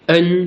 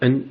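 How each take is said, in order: First: It is said with the first tone. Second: It is said with the neutral tone. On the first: "premier ton" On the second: "sans ton"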